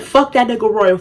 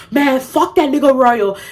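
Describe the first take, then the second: First: Said in the usual way. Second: Higher-pitched mock African accent; attempted African accent. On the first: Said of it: "don't even wanna do the African accent". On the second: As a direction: imitate him in an African accent. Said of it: "with the African accent".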